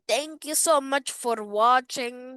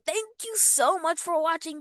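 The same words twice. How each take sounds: First: It is spoken in a put-on Indian accent. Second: It is spoken in the speaker's ordinary accent. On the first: "Are you sick of my Indian accent?" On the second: "I change back to my regular accent"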